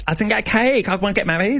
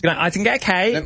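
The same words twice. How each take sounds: First: Mock whiny voice. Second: Nasal demo. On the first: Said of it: "it's more like". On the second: Shown as a demonstration. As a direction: talk through the nose with "cake" nasal. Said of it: "you gotta speak from your nose".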